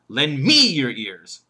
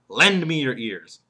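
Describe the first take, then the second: First: The stress falls on the word me. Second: The stress falls on the word lend. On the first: Listen to this speaker rather than another one. "He could put the emphasis on me" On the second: The listeners should give their attention. "The emphasis there is lend"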